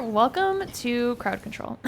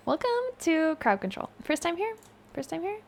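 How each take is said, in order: First: Said in the usual way. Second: High, soft little greeter voice; hushed, raised-pitch welcome; put-on welcome. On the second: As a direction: greet them mockingly small and high.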